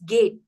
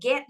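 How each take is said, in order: First: The vowel is a long 'ay' sound. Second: The vowel is a short 'eh' sound. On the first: The speaker calls it right. "it's gate" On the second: The speaker calls it wrong. "get not"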